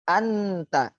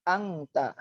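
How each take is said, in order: First: The n is pronounced fully and clearly. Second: The n is pronounced as an ng sound. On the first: "Nunnya sukun, taknya hidup. Jelas jadinya" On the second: "Jadi seperti huruf berbahasa Indonesia. A N G T A"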